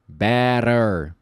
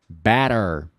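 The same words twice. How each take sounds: No difference in how they are said.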